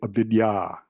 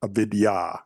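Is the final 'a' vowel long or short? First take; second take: long; long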